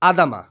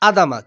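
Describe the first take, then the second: The two takes are said the same way.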